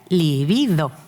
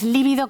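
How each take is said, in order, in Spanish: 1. La tónica está en la segunda sílaba. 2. La tónica está en la primera sílaba. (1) "Cuando hablamos de deseo sexual es llana, sin tilde" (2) "lo que de ninguna manera existe ... es líbido con tilde"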